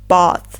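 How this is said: It is said with a broader British A. "In British English, we pronounce it as"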